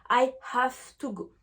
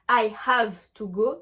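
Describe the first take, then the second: First: The word have ends with an f sound. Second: The word have ends with a v sound. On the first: The speaker calls it right. "je dis" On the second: The speaker calls it wrong. "Je ne dis pas"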